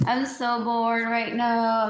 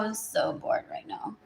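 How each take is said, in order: First: Said in the usual way. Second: Whispered bored sigh of a line. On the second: Real, not acted. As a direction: drop to a breathy whisper, bored. Repeats bored line, then whispers.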